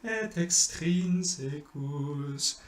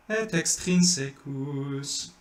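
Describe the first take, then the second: First: "extrinsecus" sung slow and high, held on the tonic "trin"; right stress. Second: "extrinsecus" sung with the stress on "secus", slow and high; wrong stress. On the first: Teacher chanting the correct accent for students. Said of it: "but it's extrinsecus". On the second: Teacher showing the mistake to avoid, wrong stress. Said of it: "You don't wanna do". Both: Shown as a demonstration.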